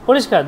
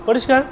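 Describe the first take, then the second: No difference in how they are said.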